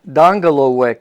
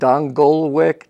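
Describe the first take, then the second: First: The name is said in its full original form. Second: The name is said in a simpler, easier form. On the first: This is the name's true pronunciation. "the correct pronunciation of my name" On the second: This version is easier for others to say. "I myself pronounce it Dongolwick, trying to help people out"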